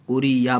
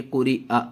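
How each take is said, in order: First: कुरी या with a ya sound at the end, the wrong way; wrong reading. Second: कुरी आ ending on an open आ; correct reading. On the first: Teacher shows the common wrong reading, casual. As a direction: show the mistake: कुरी या. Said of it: "इसको अक्सर गलत पढ़ते हैं". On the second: Teacher shows students the correct ending, clear. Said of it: "कुरी या नहीं पढ़ेंगे". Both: Shown as a demonstration.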